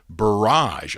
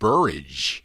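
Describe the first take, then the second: First: The ending rhymes with the word garage. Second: The ending rhymes with the word rage. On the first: The speaker calls it right. "Like garage" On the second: The speaker calls it wrong. "I thought it looks like rage"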